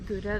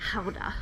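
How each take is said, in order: First: The word is said with an English pronunciation. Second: The word is said with a Dutch pronunciation. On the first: The speaker calls it wrong. "how to pronounce the Gouda that you see at the supermarket" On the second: The speaker calls it right. "actually called Gouda"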